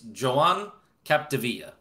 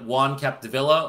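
First: The first name has the Catalan Joan sound. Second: The first name sounds like Spanish Juan. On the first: The speaker calls it right. "It's Joan Capdevila" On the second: The speaker calls it wrong. "you might think it's like Juan Capdevila"

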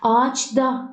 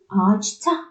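First: The consonant before the final vowel is d. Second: The consonant before the final vowel is t. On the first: The speaker calls it wrong. "değil" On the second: The speaker calls it right. "D, T'ye dönüştü"

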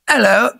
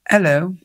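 First: It is said in a neutral British voice. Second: It is said in a sad British voice.

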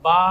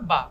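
First: The vowel is long, drawn out. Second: The vowel is short, not drawn out. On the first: "এখানে পরিমাণ টান দিতে হবে" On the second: "কোনো টান নেই"

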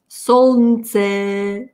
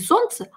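First: The l is pronounced and the e is lengthened. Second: The l is silent and the vowels are short. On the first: "Произнести L ... И удлинили E. ... Это было бы по-французски" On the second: "А солнце – это по-русски"

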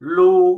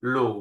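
First: It is said with the first Mandarin tone. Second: It is said with the third Mandarin tone. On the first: "เสียงที่หนึ่งลู" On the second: "เสียงที่สามหลู"

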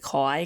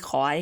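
The two takes are said the same way.

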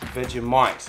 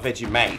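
First: The last syllable sounds like 'might'. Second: The last syllable sounds like 'mate'. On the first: The speaker calls it right. "Vegemite, not Vegemite" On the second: The speaker calls it wrong. "not Vegemite. Oh. Mate is a friend"

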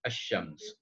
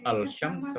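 First: The 'l' blends into a doubled 'sh' sound. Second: The article is said with a clear 'l' sound. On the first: The speaker calls it right. "tapi mesti Ash-Shams" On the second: The speaker calls it wrong. "jangan bunyi Al-Shams"

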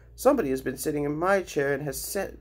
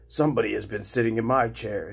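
First: It is said in a small, high voice. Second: It is said in a deep, rough voice.

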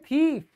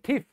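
First: The vowel is a long ee. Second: The vowel is short. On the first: The speaker calls it right. "आप बोलोगे थीफ" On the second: The speaker calls it wrong. "आप ये नहीं बोलोगे थीफ"

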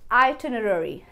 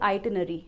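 First: Every syllable is said, ending in rery. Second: Some syllables are dropped, shortening the word. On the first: The speaker calls it right. "So could you please send me the आइटनरी" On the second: The speaker calls it wrong. "ना कि आइटनरी"

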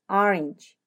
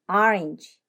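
The two takes are said the same way.

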